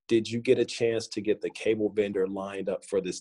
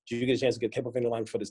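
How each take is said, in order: First: Each word is spoken slowly and clearly. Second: The words are rushed together quickly. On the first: The speaker calls it right. "if I just just sound every word out" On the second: The speaker calls it wrong. "instead of saying"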